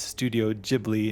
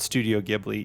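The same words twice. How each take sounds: First: Ghibli starts with a soft J sound. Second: Ghibli starts with a hard G sound. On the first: This is the form the creator chose. "Miyazaki liked the sound Djibouti better" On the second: This is how the spelling would technically be read. "technically it would be Studio Ghibli"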